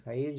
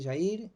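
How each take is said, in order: First: Jair with a throaty h-like J; J as Spanish jota. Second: Jair with a Rioplatense sh sound. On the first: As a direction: say Jair as "ha-EER". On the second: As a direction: say Jair as "sha-EER". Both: Shown as a demonstration. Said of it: "¿Es Jair o Jair?".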